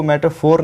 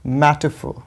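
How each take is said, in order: First: मेटाफोर with a full r at the end; wrong pronunciation. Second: मेटाफोर as MET-uh-fo, stressed at the start; correct, silent R. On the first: Teacher warns against this reading, मेटाफोर ending in a clear r. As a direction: sound the final r in मेटाफोर. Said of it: "इसको मेटाफोर नहीं पढ़ेंगे". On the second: Teacher gives the correct reading, मेटाफोर as MET-uh-fo. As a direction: drop the r and punch MET in मेटाफोर. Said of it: "इसको बोलेंगे मेटाफोर". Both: Shown as a demonstration.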